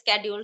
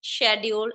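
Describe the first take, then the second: First: It uses the newer pronunciation. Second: It uses the older pronunciation. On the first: "nowadays schedule" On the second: "we used to speak schedule"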